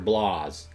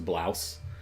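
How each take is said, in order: First: The vowel sounds like 'ah', as in 'blahs'. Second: The vowel sounds like 'ow', as in 'cow'. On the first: Someone else said it this way. "it sound like she just kept saying blahs" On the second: This is the speaker's own usual way. "which is how I say it"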